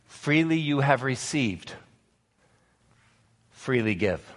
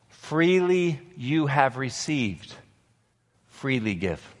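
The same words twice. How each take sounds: First: Said in the usual way. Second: Slower, with Freely drawn out and weighted; a hushed, deliberate repeat for the congregation to remember; slow solemn repeat. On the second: Shown as a demonstration. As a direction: let Freely you have received sink in slowly. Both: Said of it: "Remember this".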